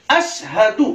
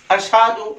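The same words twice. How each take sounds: First: अशहदु as 'ash-hadu', crisp h and u ending; careful अशहदु; correct pronunciation. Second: अशहदु as 'ashaadu', h weakened; short, loose अशहदु; wrong pronunciation. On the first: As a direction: separate ash and hadu in अशहदु. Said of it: "सही तलफ़ुज़ क्या है". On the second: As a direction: blur the h in अशहदु. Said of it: "बहुत सारे अशहदु कहते हैं". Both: Shown as a demonstration.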